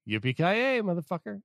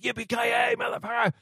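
First: It is said as a casual throwaway. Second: It is said big and emphatic.

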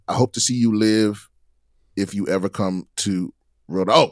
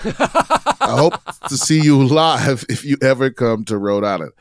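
First: 'Live' is said with a short i, like 'give'. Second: 'Live' is said with a long i, like 'five'. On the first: The listener hopes to be alive to see the host. The speaker calls it wrong. "Oh, I'm sorry" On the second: The listener hopes to see the host perform in person. The speaker calls it right. "that completely changes the whole meaning of that sentence"

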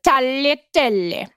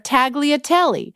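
First: The word is pronounced the Italian way. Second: The word is pronounced the English way. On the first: The speaker calls it right. "This is how you pronounce it" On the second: The speaker calls it wrong. "I said I ordered the brown butter tagliatelle"

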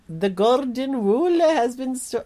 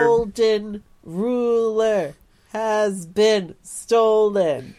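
First: It is said in a thick Scottish accent. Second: It is said in a clearly enunciated British accent. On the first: The line is hard to understand. "The Scottish carrot comes back in, and is like" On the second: The line is made clear to understand. "kind of goes into a regular British accent or, like, yeah, enunciates it"

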